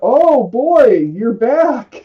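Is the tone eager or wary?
wary. It sounds wary and guarded.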